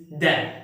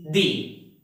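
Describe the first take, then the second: First: "the" said like "duh", short vowel; "the" as thuh. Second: "the" said like "dee", ee vowel; "the" as thee. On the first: Teacher asks about the other context, "the" as thuh. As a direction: say "the" with a neutral uh. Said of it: "in what context do we have to use". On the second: Teacher repeats the question to students, "the" as thee. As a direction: say "the" with an ee, as in see. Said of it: "At which situation do we have to use". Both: Shown as a demonstration.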